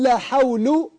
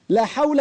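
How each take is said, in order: First: The word ends in an -un sound. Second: The word ends in a short a vowel. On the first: The noun is in the nominative case. "ده مرفوع" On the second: The noun is indeclinable, built on the fatha. "مبني على الفتح"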